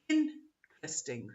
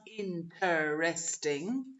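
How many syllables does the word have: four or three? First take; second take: three; four. First: It is said with three syllables. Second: It is said with four syllables. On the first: The speaker calls it right. "It's interesting. So it's just two" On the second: The speaker calls it wrong. "So it's not interesting"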